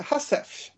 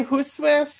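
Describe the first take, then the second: First: "Husif" with a clipped hoo-sif, softer and dropping the w; British pronunciation. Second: "huswif" with a short u and no final ts, said plainly. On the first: Retold or imitated. Guest quotes a British speaker's "Husif" to the host. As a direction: echo the British "Husif", a little quieter. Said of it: "last month using a British accent". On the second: Shown as a demonstration. Guest shows one common way of saying "huswif" to the host. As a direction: sound out "huswif" as some people say it. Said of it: "some people say huswif".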